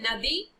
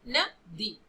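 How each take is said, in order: First: It is said as one word without a pause. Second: A short pause comes between the two syllables. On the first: It means a river. "नदी माने क्या है, river है।" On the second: It means did not give. "थोड़ा सा विराम हमने ले लिया तो दूसरा अर्थ भी हो गया"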